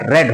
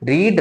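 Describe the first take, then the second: First: The vowel is a short 'e' sound. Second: The vowel is a long 'ee' sound. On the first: It is the past or third form of the verb. "लेकिन पढ़ा जाएगा रेड" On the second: It is the present form of the verb. "रीड का तीनों form एक ही होता है, लेकिन बोलने का तरीका चेंज"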